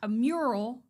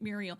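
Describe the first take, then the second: First: The word is said with two syllables. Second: The word is said with an extra syllable. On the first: The speaker calls it right. "We'll say it right" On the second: The speaker calls it wrong. "adding that extra"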